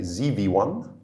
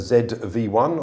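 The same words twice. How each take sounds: First: It is said the American way, 'zee'. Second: It is said the British way, 'zed'.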